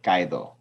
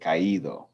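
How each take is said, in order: First: The two vowels blend into one syllable. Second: The two vowels are said as separate syllables. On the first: The speaker calls it wrong. "this would be without the accent mark" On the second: The speaker calls it right. "But we want to say caído. We want to hear the ido in there"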